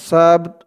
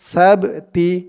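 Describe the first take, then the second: First: The word ends on a bare consonant. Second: The word ends with an added i vowel. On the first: The reciter stops at this word. "আমরা এখানে অক্ফ করছি থামছি তাই আমরা উচ্চারণ করব সাবত" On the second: The reciter continues without stopping. "যদি এখানে আমরা না থামতাম অক্ফ না করতাম তাহলে আমাদের এখানে উচ্চারণ করতে হতো সাবতি"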